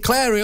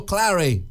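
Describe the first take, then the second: First: "Clary" with an open "air" vowel; Clary as Clairy. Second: "Clary" with a short "a" as in cat; Clary as Clarry. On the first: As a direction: say "Clary" to rhyme with dairy. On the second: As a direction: say "Clary" to rhyme with Harry. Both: Shown as a demonstration. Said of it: "Is it Clary or Clary".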